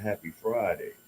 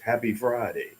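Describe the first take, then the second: First: It is said in the speaker's normal voice. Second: It is said in a put-on character voice.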